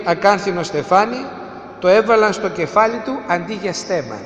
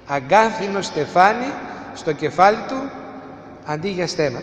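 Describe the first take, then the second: First: Said in the usual way. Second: "Αγκάθινο στεφάνι" spoken slowly, each phrase set apart, trailing off softer at "στέμα"; slow, weighty repetition of "Αγκάθινο στεφάνι στο κεφάλι του", dropping quiet on "αντί για στέμα"; slow and deliberate. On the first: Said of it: "σας το λέω ένα-ένα". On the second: Shown as a demonstration. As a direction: lay out each phrase one by one so it sinks in. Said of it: "σας το λέω ένα-ένα για να καταλάβετε".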